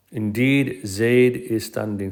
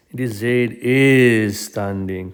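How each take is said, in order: First: "Indeed" drawn out, then a pause-free statement; stress on "Indeed". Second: "is" stretched long and pushed louder; stress on "is". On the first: Teacher shows another form of emphasis, stressing "Indeed". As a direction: set off "Indeed" as the emphatic word. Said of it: "another form of emphasis". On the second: Teacher shows students double emphasis, leaning hard on "is". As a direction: hold "is" before a slow "standing". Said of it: "this is like a double emphasis". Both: Shown as a demonstration.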